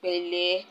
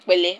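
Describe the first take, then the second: First: "Pẹ̀lẹ́" offered kindly; gentle pẹ̀lẹ́. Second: "Pẹ̀lẹ́" said short and louder; "Pẹ̀lẹ́" snapped out quickly; sharp pẹ̀lẹ́. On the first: Explaining how tone changes a greeting, "Pẹ̀lẹ́" said gently. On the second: Explaining how tone changes a greeting, "Pẹ̀lẹ́" said sharply. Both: Shown as a demonstration. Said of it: "it takes a different tone in the head".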